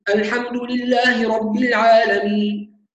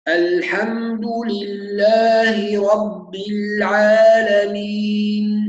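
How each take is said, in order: First: The recitation is fast with short vowel lengths. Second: The recitation is slow with long vowel lengths. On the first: "قراءته سريعة" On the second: "يقرأ بالتحقيق"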